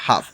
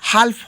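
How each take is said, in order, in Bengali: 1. f-এর আগে কোনো l-এর উচ্চারণ শোনা যায় না। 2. f-এর আগে l-এর উচ্চারণ শোনা যায়। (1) "হয় হাফ" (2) "এর উচ্চারণটা হালফ হয় না"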